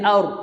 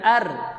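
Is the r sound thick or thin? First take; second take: thick; thin. First: The syllable is said thick and heavy. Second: The syllable is said thin and light. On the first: The speaker calls it right. "tebal sikit bunyi dia aur" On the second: The speaker calls it wrong. "Bukan ar"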